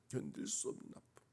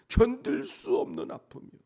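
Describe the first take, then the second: First: Hushed anguish. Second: Loud, high, impassioned cry; anguished outcry. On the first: Preacher repeats his pain to himself, hushed anguish. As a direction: drop to a pained hush. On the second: Preacher laments mockery of his beloved God, anguished outcry. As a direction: cry out the pain at full voice. Preacher voices unbearable pain. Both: Real, not acted.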